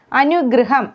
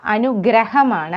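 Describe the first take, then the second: First: അനുഗ്രഹം with "gru" for "gra"; wrong pronunciation. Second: അനുഗ്രഹമാണ് with an open "gra"; correct pronunciation. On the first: Teacher showing the common mistake, mispronounced അനുഗ്രഹം. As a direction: say അനുഗ്രഹം as "anugruham". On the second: Teacher correcting learners, clear "gra" in അനുഗ്രഹമാണ്. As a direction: say അനുഗ്രഹമാണ് as "anu-graham". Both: Shown as a demonstration. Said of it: "അനുഗ്രഹം അല്ല".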